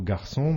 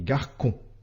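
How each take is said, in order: First: The middle consonant is an s sound. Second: The middle consonant is a k sound. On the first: The speaker calls it right. "le son SE" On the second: The speaker calls it wrong. "le son QUE"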